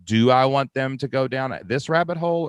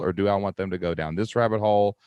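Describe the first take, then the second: First: "do I want them to go down this rabbit hole" pitched higher, held up as an open choice; higher-pitched first half of an either-or question; first option. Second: "or do I want them to go down this rabbit hole" back down at normal pitch; second option. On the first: Weighing one option against another. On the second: Second option in either-or question. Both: Acted.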